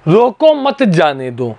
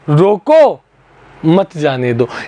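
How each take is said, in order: First: The pause comes after 'mat'. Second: The pause comes after 'roko'.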